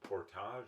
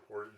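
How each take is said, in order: First: It is said with a French pronunciation. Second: It is said with an English pronunciation. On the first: "is a French word" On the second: "like the Anglo way of saying it"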